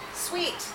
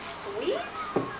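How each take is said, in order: First: The voice stays flat or falls at the end. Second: The voice rises at the end like a question. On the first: It is a plain statement. The speaker calls it wrong. "you'd read it like this" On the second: It is a question. The speaker calls it right. "reread it with that question voice"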